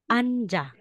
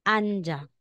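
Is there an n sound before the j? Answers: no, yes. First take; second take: yes; yes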